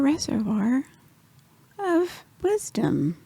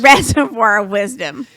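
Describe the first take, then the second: First: The phrase is said quietly and low. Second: The phrase is said loudly and strongly. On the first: The speaker calls it wrong. "When you say it low" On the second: The speaker calls it right. "You want to say it louder"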